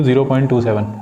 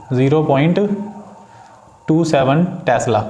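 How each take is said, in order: First: Said in the usual way. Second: zero point, a long pause, then टू seven Tesla; spaced out digit by digit. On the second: Shown as a demonstration. Teacher shows students how to read decimals, spaced out with pauses. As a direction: pause after zero point so each digit stands apart. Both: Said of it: "point के बाद नंबरों को एक एक करके पढ़ा जाता है".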